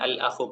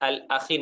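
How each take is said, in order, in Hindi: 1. शब्द 'oo' स्वर से खत्म होता है। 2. शब्द 'ee' स्वर से खत्म होता है। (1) "अल-अखु पढ़ेंगे उसको" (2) "अल-अखी नहीं"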